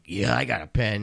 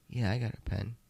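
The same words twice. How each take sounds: First: It is said in an eager, excited tone. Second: It is said in a calm, collected tone.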